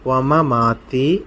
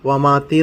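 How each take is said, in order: First: The word has two separate m syllables. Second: The word has only one m syllable. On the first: The speaker calls it right. "ഇവിടെ രണ്ട് മീമുണ്ട്" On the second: The speaker calls it wrong. "വമാത്തി എന്ന് പറയരുത്"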